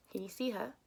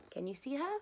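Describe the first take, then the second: First: Put-on quietly inviting the children to look; stress on see. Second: Her lifted with a rising question; gently coaxing children to spot "her"; stress on her. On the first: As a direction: lean on "see", level pitch. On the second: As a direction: ask Can you see "her", rising up on "her". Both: Shown as a demonstration.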